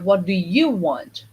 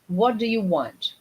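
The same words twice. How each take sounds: First: 'You' is stressed, contrasting with another person. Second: 'What' and 'want' are stressed; 'you' is soft. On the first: The listener is contrasted with someone else. "I know what he wants, but" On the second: It is a plain neutral question. "This is the normal intonation"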